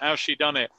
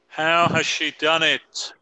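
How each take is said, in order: First: The word has is contracted to how's. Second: The word has is said in full. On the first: The speaker calls it right. "it was better with the contraction" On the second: The speaker calls it wrong. "I didn't write a contraction there"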